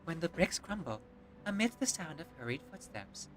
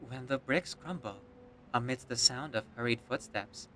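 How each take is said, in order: First: It is read in a higher-pitched voice. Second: It is read in a lower-pitched voice.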